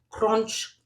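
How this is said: The word is said with a French pronunciation. "That's French"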